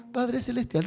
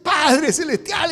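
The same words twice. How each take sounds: First: Said in the usual way. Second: Higher, slow, moved cry of Father; emotional prayer. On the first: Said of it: "hablemos normal". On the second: Shown as a demonstration. Preacher showing a moved believer, voice breaking with emotion. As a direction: say it close to tears. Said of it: "si yo estoy emocionado".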